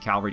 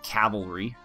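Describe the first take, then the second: First: The l sound comes before the v sound. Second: The l sound comes after the v sound. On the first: The speaker calls it wrong. "It bugs me when people say it wrong, and I just did it" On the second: The speaker calls it right. "Sorry, cavalry"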